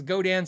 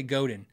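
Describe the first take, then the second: First: Godin ending in "dan". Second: Godin with a weak "din" ending. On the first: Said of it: "how do they pronounce their names". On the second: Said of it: "for everyone who says Godin". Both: Shown as a demonstration.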